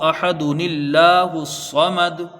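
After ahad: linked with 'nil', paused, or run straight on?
linked. Ahad joins allahu through an added 'nil' sound. The speaker calls it right. "तो फिर कैसे पढ़ा जाएगा?"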